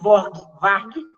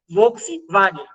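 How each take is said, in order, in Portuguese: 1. A palavra é dita com sons kaiowá alterados. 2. A palavra é dita com sons do português padrão. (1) "eu não sabia o que era Volkswagen" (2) "descobri que Volkswagen era Volkswagen"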